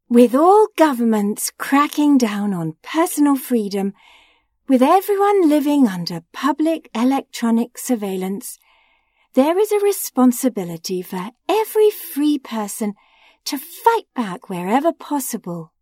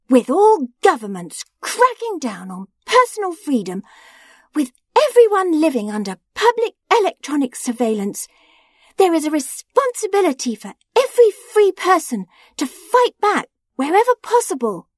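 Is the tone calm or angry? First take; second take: calm; angry. First: It is read in a calm tone. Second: It is read in an angry tone.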